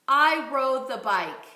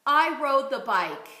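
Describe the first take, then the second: First: "I rode the bike" repeated slowly and projected; slow projected echo; slow loud repeat. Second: "I rode the bike" projected clearly; loud model phrase. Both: Shown as a demonstration. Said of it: "Let's try this phrase".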